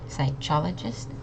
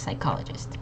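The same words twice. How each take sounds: First: The middle consonant is a soft 'ch' sound. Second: The middle consonant is a hard 'k' sound. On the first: The speaker calls it wrong. "not psychologist. that doesn't really sound great" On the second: The speaker calls it right. "the C and the H make a hard K sound"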